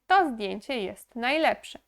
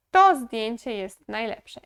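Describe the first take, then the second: No difference in how they are said.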